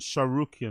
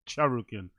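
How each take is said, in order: First: The name is said without a T sound. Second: The name is said with a T sound. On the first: The speaker calls it right. "you don't pronounce the T" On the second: The speaker calls it wrong.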